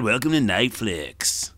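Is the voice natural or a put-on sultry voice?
natural. It is said in a natural, ordinary voice. "Wait, maybe that's not it"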